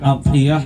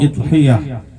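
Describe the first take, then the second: First: The word begins with an a vowel. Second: The word begins with an i vowel. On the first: "bukan adhiyah" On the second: "atau idhiyah"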